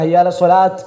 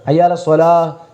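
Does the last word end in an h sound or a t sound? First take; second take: t sound; h sound. First: The last word ends with a t sound. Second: The last word ends with an h sound. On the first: The speaker calls it wrong. "ഹയ്യ അലസ് സ്വലാത്ത് എന്ന് പറയുന്നത് തെറ്റാണ്" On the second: The speaker calls it right. "ഹയ്യ അലസ് സ്വലാഹ് എന്നാണ് വരിക"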